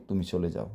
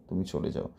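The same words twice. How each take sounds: Both takes have the same delivery.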